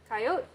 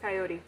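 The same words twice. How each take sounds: First: The word is said with two syllables. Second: The word is said with three syllables. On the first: The speaker wants to get to the point quickly. "was shortened because we needed to get to the point very quick" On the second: The speaker has time to get the full thought out. "which is the full thing"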